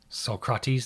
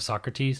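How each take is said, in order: First: The name is said with a French-style pronunciation. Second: The name is said with the usual English pronunciation. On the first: This is how the game says it. "the French one" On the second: This is the familiar everyday way of saying it. "instead of"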